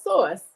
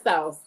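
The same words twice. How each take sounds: First: "sauce" said as SAWSS, close to "source"; "sauce" with a rounded AW vowel; Northern sauce. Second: "sauce" said as SOWSS; "sauce" with a gliding OW vowel; Southern sauce. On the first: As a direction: correct it to a New York "sauce". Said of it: "It's sauce". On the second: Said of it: "It's not sauce". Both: Shown as a demonstration.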